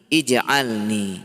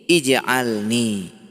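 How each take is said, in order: First: The word begins with an i vowel. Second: The same.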